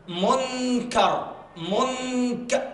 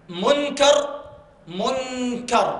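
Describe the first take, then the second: No difference in how they are said.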